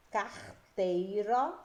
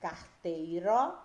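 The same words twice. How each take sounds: First: "carteiro" slowly broken into "car... teiro"; teacher's drawn-out "car-teiro", syllables held apart; slow syllable-split reading. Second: Said in the usual way. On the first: Shown as a demonstration. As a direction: stretch "carteiro", pausing after "car". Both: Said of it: "As palavras que vocês irão analisar".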